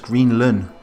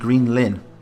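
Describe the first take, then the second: First: The last syllable has a dull 'uh' vowel. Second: The last syllable has a clear 'ih' vowel. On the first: The speaker calls it wrong. "I keep pronouncing it as Greenlun" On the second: The speaker calls it right. "but it's actually Greenlin"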